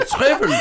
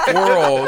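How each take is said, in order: First: "Squivels" said high, with a V replacing the R; German mispronunciation. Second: Said in the usual way. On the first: Retold or imitated. German failing when corrected on squirrel, high mispronounced "Squivels" with a V. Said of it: "they YouTube it and they can't". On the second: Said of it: "And like, no".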